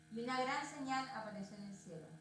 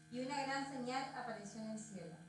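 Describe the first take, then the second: Both takes have the same delivery.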